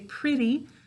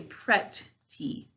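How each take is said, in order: First: The sounds are relaxed and run together. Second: Each sound is said clearly and separately. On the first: This is the form used in normal speech. "We say pretty when we're talking" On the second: This is the form used for spelling. "To spell pretty, we say pretty"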